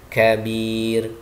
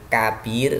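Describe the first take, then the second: First: "kabir" slow, airy k, long last vowel; correct kaf. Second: "kabir" with a hard k and long first vowel; wrong kaf. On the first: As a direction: release air on k and stretch "kabir". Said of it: "tapi kabir". ("kabir" dengan kaf berembus, akhir panjang) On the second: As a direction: harden the start of "kabir", no breath on k. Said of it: "jadi bukan kabir". ("kabir" dengan kaf keras tanpa embusan) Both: Shown as a demonstration.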